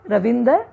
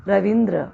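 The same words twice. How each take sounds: First: रविंदर with an extra a, ra-vin-dar; रविंदर, Punjabi style with inserted vowel; Punjabi mispronunciation. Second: रविंद्र with a dr cluster, ra-vin-dra; रविंद्र, clean cluster dra; correct form. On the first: Teacher showing the Punjabi error. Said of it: "अशुद्ध है". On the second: Teacher giving the correct form. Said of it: "शुद्ध रूप है". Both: Shown as a demonstration.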